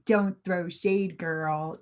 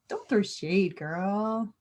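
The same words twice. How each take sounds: First: It is said in a stiff, mechanical way. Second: It is said in an easy, relaxed way. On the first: The speaker calls it wrong. "too robotic" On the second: The speaker calls it right.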